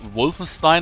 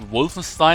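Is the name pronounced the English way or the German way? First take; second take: English; English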